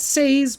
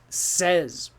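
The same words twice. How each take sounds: First: The vowel sounds like the one in 'say'. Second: The vowel sounds like the one in 'set'. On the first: The speaker calls it wrong. "not says" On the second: The speaker calls it right. "we pronounce it as S E Z"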